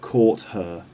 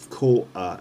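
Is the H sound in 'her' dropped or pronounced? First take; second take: pronounced; dropped. First: The H of 'her' is clearly pronounced. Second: The H is dropped, sounding like 'quarter'. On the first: The speaker calls it wrong. "not caught her" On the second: The speaker calls it right. "the H sound of her isn't clearly pronounced"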